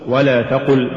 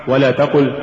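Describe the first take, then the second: No difference in how they are said.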